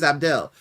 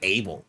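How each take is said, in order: First: The d sound in the name is pronounced. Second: The d sound in the name is silent. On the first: The speaker calls it right. "his name is Abdel" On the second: The speaker calls it wrong. "how the hell is a D gonna be silent?"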